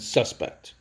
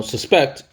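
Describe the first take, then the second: First: Suspect as SUS-pect, the noun; full SUS at the start of suspect, lighter pect; stress on first syllable. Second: Suspect as sus-PECT, the verb; weak first syllable, hit PECT in suspect; stress on second syllable. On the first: Teacher contrasting the two ways of saying suspect, first syllable stressed. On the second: Teacher contrasting the two ways of saying suspect, second syllable stressed. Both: Shown as a demonstration. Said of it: "there's two ways to say that word".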